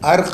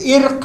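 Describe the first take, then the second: First: The word begins with an 'a' vowel. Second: The word begins with an 'i' vowel. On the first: The speaker calls it wrong. "ये अर्क नहीं है" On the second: The speaker calls it right. "ये इर्क है"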